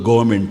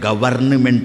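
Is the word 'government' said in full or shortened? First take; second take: shortened; full. First: The middle syllables are squeezed into a short form. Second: Every written syllable is sounded out in full. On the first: This is how it is actually read. "ಓದೋದು ಗೌರ್ಮೆಂಟ್ ಅಂತ" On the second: This is how it would be read as written. "ಅಲ್ಲಿದ್ದಂತೆ ಓದಿಬಿಟ್ರೆ ಗವರ್ನಮೆಂಟ್ ಅಂತ ಆಗಬೇಕು"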